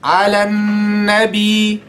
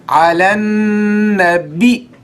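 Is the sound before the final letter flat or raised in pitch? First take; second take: flat; raised. First: The sound before the last letter is not raised. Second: The sound before the last letter is raised. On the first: The speaker calls it wrong. "Do you say" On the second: The speaker calls it right. "You see the letter before the last letter"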